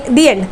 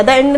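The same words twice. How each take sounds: First: दी एंड with a long ee before the vowel; correct article sound. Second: द end with "thuh" before the vowel; wrong article sound. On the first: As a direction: say दी एंड as "thee end". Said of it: "दी एंड बोलते हैं". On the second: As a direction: mispronounce द end as "thuh end". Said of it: "द end नहीं होता". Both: Shown as a demonstration.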